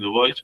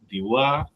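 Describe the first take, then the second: First: The name is pronounced with English sounds. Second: The name is pronounced with French sounds. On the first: "Los ingleses dicen Dubois" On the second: "según lo pronunciamos en francés"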